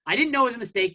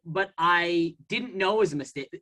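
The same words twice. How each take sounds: First: "know" hit higher and louder than the rest; stress on know. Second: Said in the usual way. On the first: Shown as a demonstration. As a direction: lean hard on "know".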